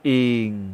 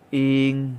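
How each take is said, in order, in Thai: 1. พยางค์นี้ออกเสียงด้วยวรรณยุกต์เสียงต่ำ. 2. พยางค์นี้ออกเสียงด้วยวรรณยุกต์เสียงกลาง. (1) "เอก" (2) "สามัญ"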